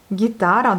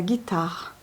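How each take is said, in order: First: "guitare" as gi-TA-ra, stressed on TA; stress on second syllable. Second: Said in the usual way. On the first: Shown as a demonstration. Teacher models the Russian word, stress on the second syllable. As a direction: lean on the middle syllable of "guitare". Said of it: "la deuxième syllabe". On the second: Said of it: "donc c'est la guitare".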